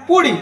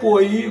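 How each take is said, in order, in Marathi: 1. मधला 'l' आवाज स्पष्टपणे उच्चारला जातो. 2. मधला 'l' आवाज पूर्णपणे गाळला जातो. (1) "मूळ शब्द काय पोळी" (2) "पण म्हणते को पोई"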